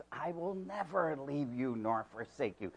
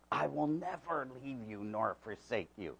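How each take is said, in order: First: Never slightly stressed, still soft; a touch of stress on never. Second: Said in the usual way. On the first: Shown as a demonstration. Preacher quietly stressing never to the church. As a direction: lean lightly on never. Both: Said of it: "that word never".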